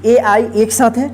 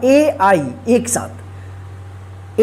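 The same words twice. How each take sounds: First: Said in the usual way. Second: "ए आई एक साथ" drawn out slowly and softly; slow stressed letters. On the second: Shown as a demonstration. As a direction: stretch out "ए आई एक साथ" for emphasis. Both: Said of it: "ध्यान रखिएगा".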